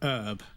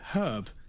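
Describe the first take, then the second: First: The word starts without an H sound. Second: The word starts with a clear H sound. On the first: "in America, you pronounce it herb" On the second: "in the U K, we pronounce it herb because it has a fucking H in it"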